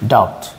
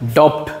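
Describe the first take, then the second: First: The b sound is silent in the word. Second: The b sound is pronounced in the word. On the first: The speaker calls it right. "এটা সরে যাবে ডাউট" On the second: The speaker calls it wrong. "না হলে এটা কি হতো"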